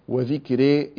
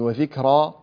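First: The final vowel is fully fronted toward 'e'. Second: The final vowel is fully open, like 'a'. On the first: "إمالة" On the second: "هذا فتح"

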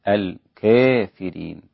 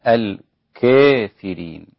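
The two takes are said the same way.

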